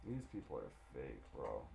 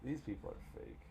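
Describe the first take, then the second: First: Muttered low. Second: Said in the usual way. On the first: Real, not acted. Streamer muttering at the game characters, low and soft. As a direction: lower and much softer, muttered aside.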